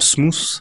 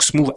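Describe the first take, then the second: First: The word ends with a th sound. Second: The word ends with a v sound. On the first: The speaker calls it wrong. "et non pas T H comme smooth" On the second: The speaker calls it right. "avec un V"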